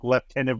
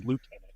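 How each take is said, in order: First: "lieutenant" said as lef-tenant; British lieutenant. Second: "lieutenant" said as loo-tenant; American lieutenant. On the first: Comparing regional pronunciations, British lef-tenant. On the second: Comparing regional pronunciations, American loo-tenant. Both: Shown as a demonstration. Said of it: "It may be just a weird thing, like lieutenant versus lieutenant".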